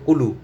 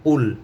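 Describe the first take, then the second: First: The word ends with an extra vowel sound. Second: The word ends on the consonant sound. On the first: The speaker calls it wrong. "আমরা অনেক সময় বলে ফেলি যে কুলু, কুলু বলতে কোনো শব্দ নেই" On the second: The speaker calls it right. "কফলাম পেশ কুল"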